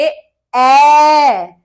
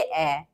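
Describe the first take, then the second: First: The vowel is drawn out and said forcefully. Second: The vowel is held very briefly. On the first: "प्लुत मात्रा को हम बोलेंगे ... जोर लगा के बोलते हैं" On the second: "ऋस्व मात्रा को हम बोलेंगे"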